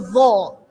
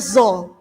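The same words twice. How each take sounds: First: The first sound is a voiced th-like sound. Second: The first sound is a plain buzzing z. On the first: The speaker calls it right. "kalau jenengan ujung lidahnya digigit, bunyinya tidak akan zo, tapi zo" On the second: The speaker calls it wrong. "kalau ujung lidahnya nggak digigit, pasti bunyinya zo"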